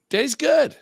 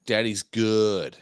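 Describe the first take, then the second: First: Squeaky high-pitched pleased voice; silly high voice. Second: Said in the usual way. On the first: Pretend. To his friend, bragging he's fine after drinks, in a squeaky high voice. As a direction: squeal it out like a cartoon character.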